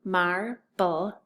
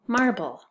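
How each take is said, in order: First: "marble" broken into mar, bull; split syllables. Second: Said in the usual way. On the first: Shown as a demonstration. Teacher blending the parts, still held apart. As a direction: say "marble" in two separate beats. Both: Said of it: "we're gonna tap it out".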